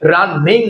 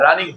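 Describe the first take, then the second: First: The n sound is doubled and held long. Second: The n sound is single and short. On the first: The speaker calls it wrong. "রানিং হয় না" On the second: The speaker calls it right. "রানিং ঠিক আছে"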